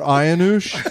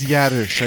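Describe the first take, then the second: First: The name begins without a Y sound. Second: The name begins with a Y sound. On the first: This is how the front desk misread the name. The speaker calls it wrong. "He's like, Mr. Ayanush" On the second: This is the family's actual pronunciation. The speaker calls it right. "I think that's a Y"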